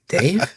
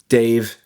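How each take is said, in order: First: The pitch rises at the end like a question. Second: The pitch falls flatly at the end. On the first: "Question mark at the end" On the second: "You don't sound excited to be yourself"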